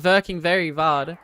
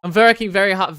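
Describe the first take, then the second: First: Mock German accent with V for W; playful German-accented repeat. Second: Said in the usual way. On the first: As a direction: say "working" as "verking", German-style. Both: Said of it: "Very German of you".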